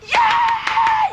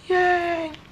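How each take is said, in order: First: The cheer is loud and wildly excited. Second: The cheer is weak and unexcited.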